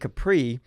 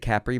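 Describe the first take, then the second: First: Capri is said with an everyday American pronunciation. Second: Capri is said with the local pronunciation.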